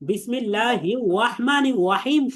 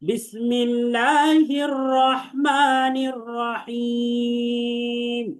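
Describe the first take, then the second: First: The r sounds come out like w. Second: The r sounds are clear r sounds. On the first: The speaker calls it wrong. "শোনা যায় ওয়াওয়ের মতো।" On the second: The speaker calls it right. "ওয়াও না, বরং এটা র।"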